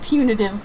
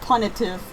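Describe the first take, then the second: First: The first syllable sounds like 'pyoo'. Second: The first syllable sounds like 'pun'. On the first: This is the standard pronunciation. "I know that's supposed to be punitive" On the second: This is a deliberate pun on the word. "but punitive. Gotta say it that way"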